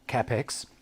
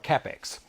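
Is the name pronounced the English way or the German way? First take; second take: German; English. First: The name is pronounced with German vowel rules. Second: The name is pronounced with English vowel rules. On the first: "They pronounce it Capex" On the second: "I call my drop saw a Capex"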